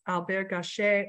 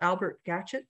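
First: The name is pronounced the French way. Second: The name is pronounced the English way. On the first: "the French" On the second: "or English pronunciation of his name"

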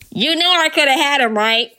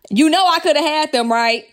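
First: It is said in a loud megaphone-like voice. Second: It is said in her normal speaking voice.

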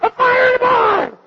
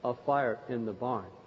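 First: It is said in an urgent, exclamatory way. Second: It is said in a calm, mild way. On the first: It is an urgent call for action. "It's somewhat similar to an exclamation point" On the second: It is a plain statement of a fact. "instead of saying, oh"

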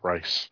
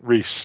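First: The name is said like 'rice'. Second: The name is said like 'Reese'. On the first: The speaker calls it wrong. "not Rice" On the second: The speaker calls it right. "I'm saying it correctly this time"

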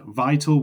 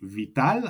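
First: The word has an English pronunciation. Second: The word has a Spanish pronunciation.

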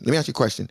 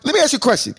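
First: It is said with a changed tone and inflection. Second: It is said in the speaker's original tone.

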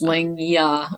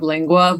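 First: The second syllable begins with a 'y' sound. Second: The second syllable begins with a 'w' sound. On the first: The speaker calls it right. "but it's lingya or something" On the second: The speaker calls it wrong. "I always say it wrong, like tongue in Spanish"

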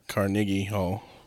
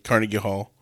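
First: Carnegie is said the Scottish way. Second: Carnegie is said the common American way. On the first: The speaker calls it wrong. "not Carnegie Hall" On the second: The speaker calls it right. "that's you know, common speech"

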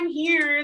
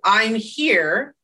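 First: It is said softly and gently. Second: It is said loudly, like screaming.

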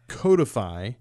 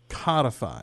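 First: The first syllable sounds like 'code'. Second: The first syllable sounds like 'cod'. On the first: The speaker calls it right. "the other word that I get wrong" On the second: The speaker calls it wrong. "I tend to pronounce it codify"

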